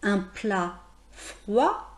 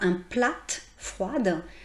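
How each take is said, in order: First: The final T and D sounds are silent. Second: The final T and D sounds are pronounced. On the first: The speaker calls it right. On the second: The speaker calls it wrong.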